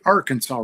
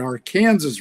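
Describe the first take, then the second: First: It is said the common outside way. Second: It is said the way locals say it. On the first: The speaker calls it wrong. "It's not the Arkansas River" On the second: The speaker calls it right. "it's the Arkansas River"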